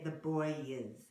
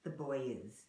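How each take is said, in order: Both takes have the same delivery.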